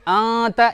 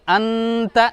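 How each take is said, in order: First: The n is hidden as a nasal sound. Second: The n is clearly pronounced as n. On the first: The speaker calls it right. "आत ये सही है" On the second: The speaker calls it wrong. "लेकिन अंत ये गलत है"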